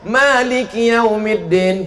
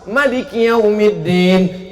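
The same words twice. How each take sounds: First: The vowel after the first m is long. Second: The vowel after the first m is short. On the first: This follows the Hafs reading. "Kalau awak mimnya panjang" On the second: This follows the Warsh reading. "Kalau Maroko pakai qiraat Warsh"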